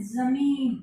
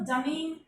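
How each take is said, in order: First: जमीन said as zameen, the z firmly buzzed and louder; pure pronunciation. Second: Said in the usual way. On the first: Shown as a demonstration. Teacher shows students the pure ज़मीन with a buzzed z. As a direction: stress the nukta z sound at the start of जमीन. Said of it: "अगर हम इसको शुद्ध उच्चारण कर रहे हैं". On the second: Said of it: "एक तो हम बोले इसको जमीन".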